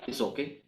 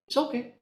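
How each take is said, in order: First: Softer, gentle "It's okay" with a rise; soft reassurance. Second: Much higher, lifted "It's okay"; bright high reassurance. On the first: ("It's okay" lembut menenangkan) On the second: ("It's okay" diucapkan tinggi dan ringan) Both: Real, not acted.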